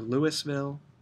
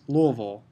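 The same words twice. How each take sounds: First: It is said the outsider, non-Kentucky way. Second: It is said the local Kentucky way.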